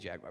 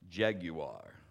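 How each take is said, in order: First: A casual, everyday pronunciation of the word. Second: A polished, advertisement-style pronunciation of the word. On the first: "I say Jaguar" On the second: "if you watch the commercials, this is how they pronounce it"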